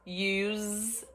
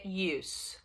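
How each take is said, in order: First: The word ends with a Z sound. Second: The word ends with an S sound. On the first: It is the verb. "aí vem som de Z" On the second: It is the noun. "Como substantivo, ele tem o som de S"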